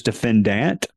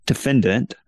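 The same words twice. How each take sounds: First: Defendant ending in a clear, weighted DANT; archaic pronunciation. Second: Said in the usual way. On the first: Shown as a demonstration. Cites an old dictionary, defendant with archaic DANT ending. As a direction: give defendant a full final vowel, de-fen-DANT. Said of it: "an archaic pronunciation". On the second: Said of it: "is the more common pronunciation".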